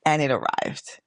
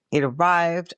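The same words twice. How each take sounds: First: Said in the usual way. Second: Arrived lifted higher with glee; excited. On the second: Shown as a demonstration. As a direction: repeat it, now thrilled.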